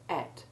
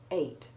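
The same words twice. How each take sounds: First: The vowel is a short E, as in bet. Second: The vowel is a long A, as in eight. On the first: "the more usual pronunciation for both spellings is the short E one sound" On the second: "sometimes you will hear it pronounced with the long A sound"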